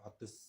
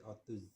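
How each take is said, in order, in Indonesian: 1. Kata itu berakhir dengan bunyi s tak bersuara. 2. Kata itu berakhir dengan bunyi z yang bergetar. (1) "bukan otus" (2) "tapi otuz"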